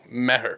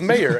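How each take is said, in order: First: The name is said as ma-her, two syllables. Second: The name sounds like the word mayor. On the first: It is the original form of the name. "It's actually pronounced Maher" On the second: It is the simplified form that is easier to pronounce. "He told everybody his name is Mayor"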